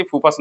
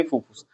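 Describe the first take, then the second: First: "फूफास" के अंत में अ, उ नहीं; छात्र की टोक दोहराते हुए "फूफास" को "फस" पर ख़त्म करें; टोका गया उच्चारण. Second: "फूफूस" के अंत में उ; छात्र की टोक दोहराते हुए "फूफूस" को धीमी आवाज़ में "फुस" पर ख़त्म करें; सुधारा हुआ उच्चारण. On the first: ("फूफास", दूसरा स्वर अ) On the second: ("फूफूस", दूसरा स्वर उ) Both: Retold or imitated. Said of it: "पांच मरते हमको टोक चुका है".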